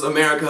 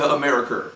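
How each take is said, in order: First: Said in the usual way. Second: "America" ending in a hard "er"; mimicked mispronunciation. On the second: Showing viewers how the rapper says it, "America" with an r ending. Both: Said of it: "She also pronounces America".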